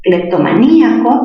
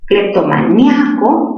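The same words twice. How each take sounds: First: Cleptomaníaco with stressed í split from the a. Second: Cleptomaníaco with nia as one stressed syllable; diphthong ia. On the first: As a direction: break Cleptomaníaco as clep-to-ma-NÍ-a-co. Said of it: "tildación disolvente". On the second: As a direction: say Cleptomaníaco as clep-to-ma-NYA-co. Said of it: "mayor fuerza en mia". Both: Shown as a demonstration.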